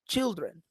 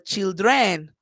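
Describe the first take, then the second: First: The stress falls on the usual syllable. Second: The stress falls on an unusual syllable. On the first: The speaker calls it right. "I say" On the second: The speaker calls it wrong. "I don't say ... children"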